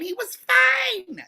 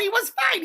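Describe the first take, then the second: First: Drawn out to convince the upset neighbor; slow drawn-out repeat. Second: Said in the usual way. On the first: Real, not acted. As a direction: stretch each word slowly.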